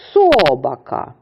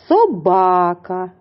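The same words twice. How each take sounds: First: The stress is on the first syllable. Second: The stress is on the second syllable. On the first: The speaker calls it wrong. "Невірно. Наголос ми поставили на перший склад" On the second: The speaker calls it right. "Наголос на другому"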